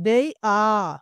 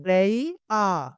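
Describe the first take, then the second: Both takes have the same delivery.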